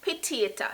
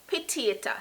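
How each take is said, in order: First: It is pronounced with a Jamaican patois accent. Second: The same.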